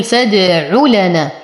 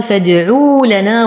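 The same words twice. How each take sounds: First: فادع لنا measured, "u" after ع kept short; short damma. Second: فادعوا لنا with a stretched "uu" after ع; wrongly lengthened damma. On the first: Teacher showing the correct reading, short "u" in فادع لنا. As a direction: go from ع straight to لنا without lengthening the vowel. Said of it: "إعطاء مد لهذه الضمة". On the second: Teacher imitating a common mistake, long "uu" in فادعوا لنا. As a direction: draw the "u" out before لنا. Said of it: "ومن الأخطاء الشائعة". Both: Shown as a demonstration.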